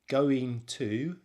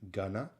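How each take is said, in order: First: Both words are said fully and separately. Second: The words blend into one reduced word.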